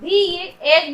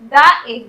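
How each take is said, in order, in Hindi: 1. शब्द 'the' में लंबी 'ee' स्वर ध्वनि होती है। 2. शब्द 'the' में छोटी 'uh' स्वर ध्वनि होती है। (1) "यहाँ पर भी हम लोग दी एग बोलेंगे" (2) "ना कि द एग बोलेंगे"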